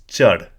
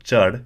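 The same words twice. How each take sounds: First: "chad" punched with a slight rise in tone; slight tone increase. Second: Said in the usual way. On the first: Shown as a demonstration. Teacher demonstrating the tonal difference, emphatic "chad". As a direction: give "chad" a touch more tone and breath. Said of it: "there's a slight increase in tone". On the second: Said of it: "perhaps I can demonstrate it here".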